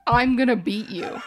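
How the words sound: It is said flatly and very seriously.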